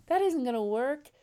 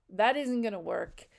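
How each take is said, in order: First: Higher and louder, pressing the point; emphatic repeat. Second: Said in the usual way. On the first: Real, not acted. Coach stressing to single viewers that "isn't" matters, emphatic. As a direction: say it again with more force on "isn't". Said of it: "repeated, louder and higher". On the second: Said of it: "repeated for emphasis".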